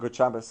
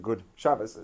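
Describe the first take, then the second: First: The greeting is said quickly with reduced sounds. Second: The greeting is said carefully with full sounds. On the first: "you're saying it quickly" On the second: "as opposed to"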